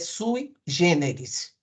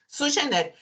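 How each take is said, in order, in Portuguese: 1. A primeira parte é dita como 'sui'. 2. A primeira parte é dita como 'su'. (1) "se tiver três vezes sui generis, é sui generis" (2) "eu não aguentava sugeneres"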